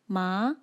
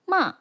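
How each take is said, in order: First: The pitch rises upward. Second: The pitch falls downward. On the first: "rises upwards like this" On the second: "falls like this"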